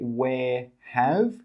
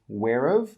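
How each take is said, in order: First: Both words are said fully and separately. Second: The words blend together into one reduced syllable. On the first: The speaker calls it wrong. "We don't say where have" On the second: The speaker calls it right. "we say whereof"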